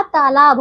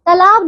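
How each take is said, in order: First: तालाब said taa-laab; long first vowel. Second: तालाब said ta-laab, short first a; short first vowel. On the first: Teacher correcting pupils, तालाब with long first aa. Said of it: "तालाब होता है". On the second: Teacher showing the wrong तालाब, first a short. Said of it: "तालाब नहीं होता". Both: Shown as a demonstration.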